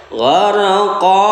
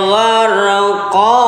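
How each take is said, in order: No difference in how they are said.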